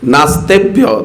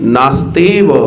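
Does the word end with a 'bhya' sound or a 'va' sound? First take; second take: bhya; va. First: The word ends with a 'bhya' sound. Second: The word ends with a 'va' sound. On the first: The speaker calls it wrong. "কি বললেন সেদিন" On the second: The speaker calls it right. "নাস্তি এব"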